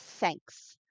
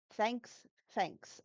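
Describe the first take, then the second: First: "thanks" with tongue between teeth, th; correct th. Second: "Thanks" said as fanks, F for th; "Thanks" mispronounced with an F; wrong F for th. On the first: Shown as a demonstration. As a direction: show the right th in "thanks". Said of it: "it's a th". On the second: Retold or imitated. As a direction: imitate students saying "Thanks" with F. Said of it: "So it's like".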